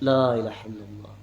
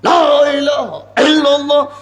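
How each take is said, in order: First: The phrase is said softly and calmly. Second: The phrase is said loudly and forcefully. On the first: It is done the way it was commanded. The speaker calls it right. "ওই জিকিরটা হয়েছে হাদিসের ভাষায় Ahsan" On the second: It is done by one's own group's custom. The speaker calls it wrong. "নিজের মতাদর্শ"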